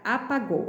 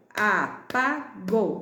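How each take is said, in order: First: Said in the usual way. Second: "apagou" split a - pa - gou; very slow a, pa, gou, gaps between; syllable by syllable. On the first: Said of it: "e a palavra apagou". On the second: Shown as a demonstration. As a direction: clap out "apagou" in three slow beats. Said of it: "bate a palminha aí das sílabas".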